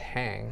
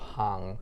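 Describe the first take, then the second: First: It sounds like the English word hang. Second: It sounds like a Swiss German word. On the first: The speaker calls it wrong. "a lot of people will pronounce as a hang" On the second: The speaker calls it right. "the correct pronunciation is more is closer to hang, which is a uh, Swedish, uh, Swiss word"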